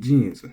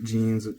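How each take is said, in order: First: The word has an accented pitch drop. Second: The word is said with flat pitch. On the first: "trying to maintain the English accent" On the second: "be flattened"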